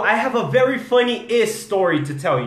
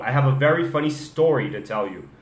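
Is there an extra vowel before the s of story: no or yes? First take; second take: yes; no. First: An extra vowel sound comes before the s. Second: The word story starts directly with the s. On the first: The speaker calls it wrong. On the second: The speaker calls it right.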